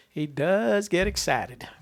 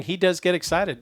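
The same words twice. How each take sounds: First: Slow, higher, stretched-out delivery; drawn-out repeat. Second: Said in the usual way. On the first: Real, not acted. Host repeating his remark on an excitable searcher, slow and drawn out. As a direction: stretch the words out teasingly.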